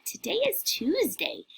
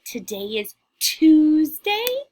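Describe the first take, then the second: First: Said in the usual way. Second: Slow, louder little witch voice; drawn out and loud, like a little witch; slow witchy model line. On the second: Shown as a demonstration. Teacher modelling a witch voice for the class, slow and loud. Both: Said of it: "Can you say".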